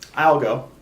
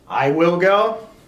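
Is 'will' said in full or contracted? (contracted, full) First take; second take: contracted; full. First: Will is shortened and joined onto I. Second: Will is said as a separate full word.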